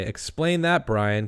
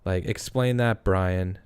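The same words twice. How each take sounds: First: Slogan read. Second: Said in the usual way. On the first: Shown as a demonstration. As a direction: announce it like a catchy slogan. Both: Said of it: "we should make shirts that say".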